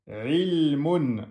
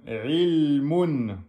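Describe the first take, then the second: The two takes are said the same way.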